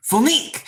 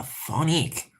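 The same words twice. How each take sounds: First: High, rising PHONIQUE; exclaimed word. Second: Tentative attempt. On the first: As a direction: call it out with a sharp lift. Repeats French word triumphantly. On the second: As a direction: try the word out quietly. Tentatively tries the French word. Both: Real, not acted.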